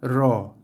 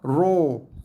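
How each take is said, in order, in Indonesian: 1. Bunyi ra ada di antara tipis dan tebal. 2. Bunyi ra tebal dan bulat. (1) "di tengah-tengah antara ra dan ro" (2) "bunyi yang terlalu tebal dan bulat"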